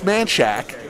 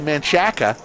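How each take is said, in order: First: The name is said with two syllables. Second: The name is said with three syllables. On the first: The speaker calls it right. "it's Manchac" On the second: The speaker calls it wrong. "Some people would say Manchaca"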